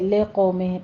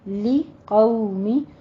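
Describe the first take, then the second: First: The kasra vowels sound like an 'e' sound. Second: The kasra vowels sound like a clear 'ee' sound. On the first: The speaker calls it wrong. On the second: The speaker calls it right.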